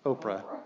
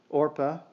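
First: The name starts with an 'op' sound. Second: The name starts with an 'or' sound. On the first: The speaker calls it wrong. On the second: The speaker calls it right.

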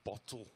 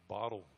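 First: The middle consonant is a clear T sound. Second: The middle consonant is a soft D sound. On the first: "but it's really bottle" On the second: "Or bottle"

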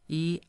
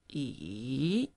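First: The pitch stays high and level. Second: The pitch dips low and then rises. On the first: "high flat one" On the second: "falling, rising"

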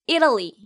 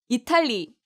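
First: English sounds, stressed first syllable, flapped t. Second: Korean syllables with an even beat and clear t. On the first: The speaker calls it right. "E에 강세를 줘서 Italy" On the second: The speaker calls it wrong. "이탈리 아니에요"

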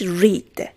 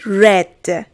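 First: The vowel is long, as in 'reed'. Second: The vowel is short, as in 'red'. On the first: It is the present form. "فرم سادهش read" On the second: It is the past participle. "فرم اسم مفعول read"

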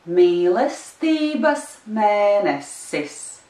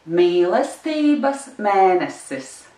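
First: It is said a little faster. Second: It is said very fast.

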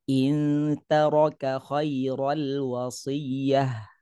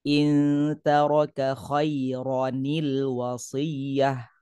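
First: The word runs straight on without an added n. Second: An extra n sound links the two words. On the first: The speaker calls it wrong. "itu bacaan yang tidak betul" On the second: The speaker calls it right. "kita kena ada letakkan huruf nun"

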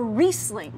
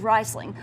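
First: The first vowel sounds like 'ee'. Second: The first vowel sounds like 'eye'. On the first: The speaker calls it right. "But it's actually Riedel or Riesling" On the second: The speaker calls it wrong. "this is hard because we often reverse the I's and E's. So it looks like Riesling. Everyone says Riesling"

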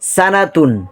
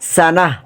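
First: The word ends with a full -tun ending. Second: The word ends with a soft h sound. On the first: The reading continues without stopping. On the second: The reading stops at this word.

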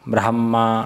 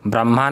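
First: The h sound comes before the m sound. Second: The h sound comes after the m sound. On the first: The speaker calls it right. "ब्रह्मा ब्रह्मा ऐसे बोलना पड़ता है" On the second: The speaker calls it wrong. "ब्रह्मा नहीं है"

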